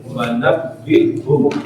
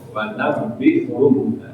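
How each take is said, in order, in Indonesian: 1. Bunyi b ditekan keras dan ditahan. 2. Bunyi b ditekan keras dan ditahan.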